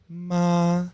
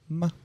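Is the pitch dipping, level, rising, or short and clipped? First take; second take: level; short. First: The pitch stays level and flat. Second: The syllable is short and clipped. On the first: "First one is a straight ma" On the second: "the last one is like a staccato"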